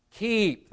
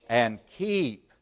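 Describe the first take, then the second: First: "keep" said much higher and punched; stressed keep. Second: Said in the usual way. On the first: Shown as a demonstration. Preacher singling out the key word, stressing it high. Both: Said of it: "there's the key".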